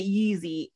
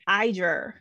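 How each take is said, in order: First: The name begins with a 'yee' sound. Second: The name begins with an 'eye' sound. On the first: The speaker calls it wrong. "I was pronouncing it Yeezy" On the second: The speaker calls it right. "So the Y is an I sound"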